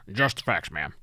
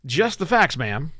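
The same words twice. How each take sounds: First: Hint of a deadpan TV detective; half-hearted try at a Dragnet cop; Dragnet impersonation. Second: Louder, higher podcast read; own announcer voice. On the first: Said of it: "drag the impersonation". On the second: Shown as a demonstration. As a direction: punch it out as your show's opener. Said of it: "I'm just gonna say it this way".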